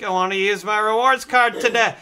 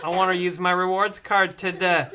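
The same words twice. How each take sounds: First: Loud, higher mock yell; hammed-up insistent shouting; exasperated customer. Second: A touch louder, mildly insistent; lightly pleading retold customer. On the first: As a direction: repeat it loudly for someone not hearing. Retold exchange, repeats it after "What?. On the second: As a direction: press the request with mock earnestness. Retold drive-thru exchange, first insistence.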